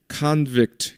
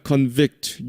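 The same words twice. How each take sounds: First: Convict said as the noun, KAHN-vict; first-syllable stress. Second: Convict said as the verb, con-VICT; second-syllable stress. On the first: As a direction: put the weight on the open first syllable of Convict. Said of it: "명사일 때는". (Convict의 앞 음절 con에 강세) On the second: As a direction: put the weight on the VICT of Convict. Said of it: "뒤에 강세가 있습니다". (Convict의 뒤 음절 vict에 강세) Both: Shown as a demonstration.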